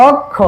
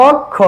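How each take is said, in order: The two takes are said the same way.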